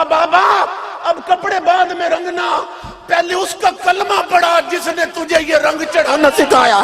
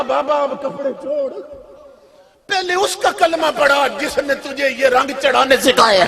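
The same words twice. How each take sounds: First: High, loud pleading cry. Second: The plea repeated, only a touch raised; mild cry. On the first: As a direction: shout it out as she breaks down. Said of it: "اس کی چیخ نکل گئی". (بلند آواز میں چیخ کر التجا) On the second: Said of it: "اس کی چیخ نکلی". (ہلکی سی پکار میں دہرانا) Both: A narrator's reading.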